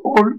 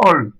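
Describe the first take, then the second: First: "ol" with closed O, as in eau; narrow, closed vowel in "ol". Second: "ol" with open O, as in parole; wide, open vowel in "ol". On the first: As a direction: round the lips tightly on "ol". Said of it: "pas ouvert". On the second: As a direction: open the mouth wider on "ol". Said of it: "pas ouvert, parole". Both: Shown as a demonstration.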